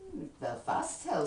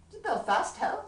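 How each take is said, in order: First: Astounded. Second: Surprised question. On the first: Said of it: "says I, quite astounded". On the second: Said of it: "quite astounded". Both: Acted.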